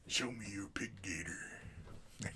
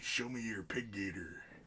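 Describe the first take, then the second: First: It is said in a put-on gruff character voice. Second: It is said in his ordinary natural voice.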